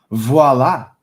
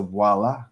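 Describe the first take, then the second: First: VOILA punched louder than usual; a loud, triumphant-sounding "Voila"; emphatic voila. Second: Said in the usual way. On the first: Real, not acted. Repeats word for emphasis.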